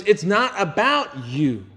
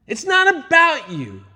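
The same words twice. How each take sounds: First: Said in the usual way. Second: "It's not about you" much higher and louder, slow; emphatic repeat. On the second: Shown as a demonstration. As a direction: drive "not" home the second time.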